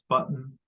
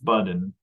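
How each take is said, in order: First: The final n is syllabic, with no vowel. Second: A vowel is heard before the final n. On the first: The speaker calls it right. "I'm going to write it with the syllabic nasal. That's button" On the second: The speaker calls it wrong. "what we don't get is this button"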